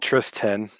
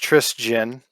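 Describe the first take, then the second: First: The name does not end like Christian. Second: The name ends like the word Christian. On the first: The speaker calls it wrong. "I hate getting called Tristan" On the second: The speaker calls it right. "it is pronounced Tristan"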